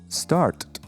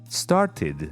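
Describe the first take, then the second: First: The word ends with a plain t sound. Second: The word ends with an id syllable. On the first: The speaker calls it wrong. "Let's try the second box" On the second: The speaker calls it right. "Yes. Id"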